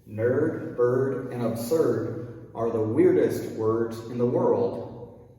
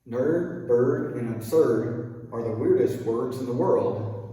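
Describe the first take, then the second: First: It is said at a slower pace. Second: It is said at a faster pace.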